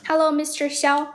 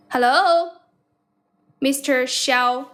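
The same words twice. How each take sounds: First: Said in the usual way. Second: Calling out. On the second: Real, not acted. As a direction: call out to a caller who isn't answering. Calling out to silent caller.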